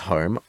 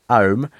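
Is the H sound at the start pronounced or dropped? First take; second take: pronounced; dropped. First: The word begins with a clear H sound. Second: The word begins without any H sound. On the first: The speaker calls it right. "one very posh" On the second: The speaker calls it wrong. "She'll skip H"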